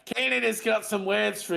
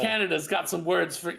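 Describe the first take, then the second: First: It is said in an Australian accent. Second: It is said without an Australian accent. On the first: The speaker calls it right. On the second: The speaker calls it wrong.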